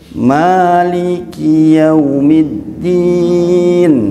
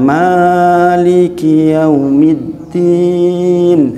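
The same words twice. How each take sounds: First: The first vowel is held for exactly two beats. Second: The first vowel is held longer than two beats. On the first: The speaker calls it right. "harus maliki yaumiddin" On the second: The speaker calls it wrong.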